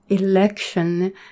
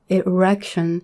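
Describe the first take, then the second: First: The word is said with an L sound. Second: The word is said with an R sound. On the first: The speaker calls it right. "Or when you wanna say election" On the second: The speaker calls it wrong. "you would pronounce it as erection. I also made the same mistake before"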